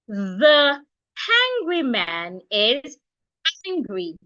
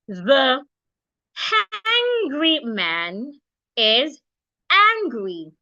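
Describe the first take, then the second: First: The sentence is spoken at a faster pace. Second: The sentence is spoken at a slower pace.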